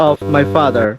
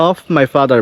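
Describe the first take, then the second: Both takes have the same delivery.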